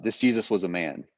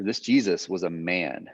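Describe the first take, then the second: First: "Jesus" carries the weight, "man" falls away; stress on Jesus. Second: "man" drawn out and weighted at the end; slow down and land on "man"; stress on MAN. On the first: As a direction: lean on the name Jesus. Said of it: "intones that sentence makes a big difference". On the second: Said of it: "putting the emphasis on man". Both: Shown as a demonstration.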